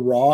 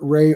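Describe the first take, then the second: First: The vowel sounds like an open 'rah'. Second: The vowel sounds like the word 'ray'. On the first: "you can pronounce it Ray or Ra" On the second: "you can pronounce it Ray or Ra"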